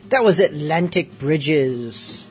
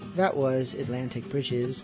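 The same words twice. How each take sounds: First: It is said in an excited way. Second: It is said in a calm, mellow way.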